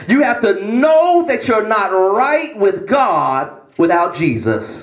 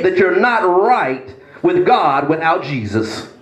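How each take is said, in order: First: "know" drawn long and hit; stress on know. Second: Said in the usual way. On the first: Shown as a demonstration. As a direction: press "know" before the repeat. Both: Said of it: "Let me say that again".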